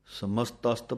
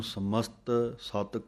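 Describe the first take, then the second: First: ਸਮਸਤਸਤ run together as one word; joined ਸਮਸਤਸਤ. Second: ਸਮਸਤ ਸਤ broken into two words; the wrong way, ਸਮਸਤ, break, ਸਤ; split ਸਮਸਤ ਸਤ. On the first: Teacher shows students the joined reading. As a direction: say ਸਮਸਤਸਤ without a break. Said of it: "ਪਾਠ ਇਕੱਠਾ ਹੈ". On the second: Teacher shows the wrong split reading. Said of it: "ਵੱਖਰਾ ਵੱਖਰਾ ਨਹੀਂ ਕਰ ਦੇਣਾ". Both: Shown as a demonstration.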